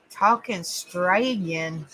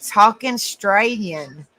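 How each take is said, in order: First: Slow, lower try at an Australian accent on "Talking Australian"; attempted Australian accent. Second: Said in the usual way. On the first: Shown as a demonstration. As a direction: sound out "Talking Australian" the Australian way, slowly. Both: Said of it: "Hey, I said that pretty good".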